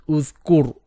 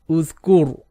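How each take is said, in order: The two takes are said the same way.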